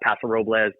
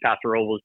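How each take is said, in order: First: Robles is said with an extra little tang. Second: Robles is said plainly, with no added flourish. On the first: "that extra little tang on it" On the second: "I've always grown up saying"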